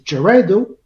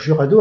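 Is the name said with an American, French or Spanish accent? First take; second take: American; French. First: It is said with an American English accent. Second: It is said with a French accent. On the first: "Les Américains disent Jurado" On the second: "nous on va dire Jurado à la française"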